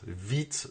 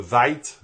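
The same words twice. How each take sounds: First: "vite" said softly with an "ee" vowel; "vite" as "veet", a softer alternative reading; French-style pronunciation. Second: "Vite" said like English "vite" rhyming with kite; "Vite" as "vaït", tentative English reading; English-style pronunciation. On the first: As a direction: say "vite" like the French word for quickly. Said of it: "je sais pas comment on dit ça". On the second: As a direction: say "Vite" with an English "eye" vowel. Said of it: "alors, comment on dit ça?". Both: Shown as a demonstration.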